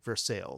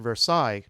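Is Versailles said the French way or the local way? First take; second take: local; French. First: It is pronounced the local Kentucky way. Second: It is pronounced like the European city. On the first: Locals will understand which town is meant. The speaker calls it right. "You have to pron- pronounce it Versailles" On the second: Locals will not understand which town is meant. The speaker calls it wrong. "if you pronounce it Versailles, nobody knows what you're talking about"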